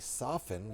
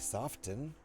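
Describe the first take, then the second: First: The t sound is silent. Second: The t sound is clearly pronounced. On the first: The speaker calls it right. "when you say soften" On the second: The speaker calls it wrong. "you don't say soften. That sounds that sounds dumb"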